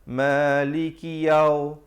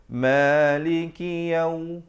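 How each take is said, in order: No difference in how they are said.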